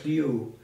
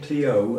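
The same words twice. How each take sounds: First: The O is close, almost like 'ooh'. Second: The O is an ordinary English 'oh' sound. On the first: "It's almost like an ooh" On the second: "as we would"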